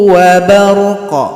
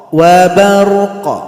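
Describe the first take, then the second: Both takes have the same delivery.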